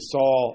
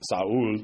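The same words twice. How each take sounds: First: The name is pronounced the English way. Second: The name is pronounced the Hebrew way.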